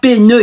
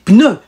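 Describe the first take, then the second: First: The p and n are split apart. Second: The p and n are joined together. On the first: The speaker calls it wrong. "Pas pneu, il n'y a pas l'apostrophe au milieu" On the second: The speaker calls it right. "vous dites pneu"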